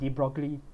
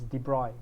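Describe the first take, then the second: First: The name is pronounced the English way. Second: The name is pronounced the French way. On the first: This is how many people commonly say it. "a lot of people will call it de Broglie" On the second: This is how it is said in the original language. "the French pronunciation is de Broglie"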